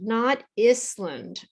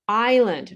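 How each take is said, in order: First: The s is pronounced. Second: The s is not pronounced. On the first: The speaker calls it wrong. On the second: The speaker calls it right.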